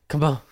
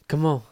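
Both takes have the same delivery.

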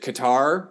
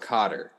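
First: It does not sound like 'cotton' with an R. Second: It sounds like 'cotton' with an R. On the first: "Qatar makes so much more sense in my brain" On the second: "Like cotton with a R"

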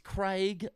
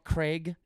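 First: Craig is said with an Australian pronunciation. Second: Craig is said with an American pronunciation. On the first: The speaker calls it right. "it's Craig" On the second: The speaker calls it wrong. "not Craig"

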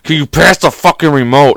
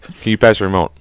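First: It is asked in a rude, annoyed tone. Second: It is asked in a plain, polite tone.

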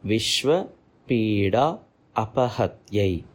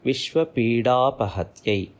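First: The words are separate, keeping the extra vowel. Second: The words merge, dropping the extra vowel. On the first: "When it is split, it goes like this" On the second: "When it joins, it pronounces like this"

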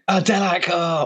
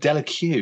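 First: The name ends without an extra final syllable. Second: The name ends with an extra 'cue' syllable. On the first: The speaker calls it right. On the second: The speaker calls it wrong.

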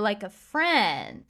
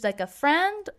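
First: It is said in a suggestive, insinuating tone. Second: It is said in a plain, neutral tone. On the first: The person may have been a romantic partner. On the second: The person was only a platonic friend.

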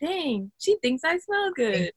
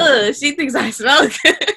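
First: It sounds pleased and flattered. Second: It sounds disgusted and put off.

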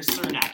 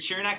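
First: The name begins with an s sound. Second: The name begins with a ch sound. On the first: "It's either chur or sir" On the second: "It's either chur or sir"

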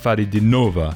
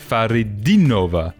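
First: The stress falls on a syllable other than 'di'. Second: The stress falls on the syllable 'di'. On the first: The speaker calls it wrong. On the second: The speaker calls it right. "An emphasis on the second I"

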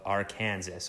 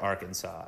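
First: The name is said differently, likely ending in 'sas'. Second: The name is said the usual way, ending in 'saw'. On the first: The speaker calls it wrong. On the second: The speaker calls it right.

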